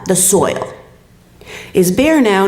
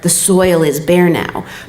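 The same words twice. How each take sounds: First: There is a pause after "soil". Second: It is said without a pause after "soil".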